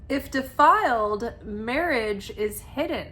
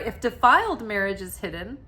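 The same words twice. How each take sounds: First: A pause splits the phrase after 'defiled'. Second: The phrase runs on with no pause inside. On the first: Marriage is hidden when it is defiled. The speaker calls it wrong. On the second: Even defiled marriage is hidden. The speaker calls it right.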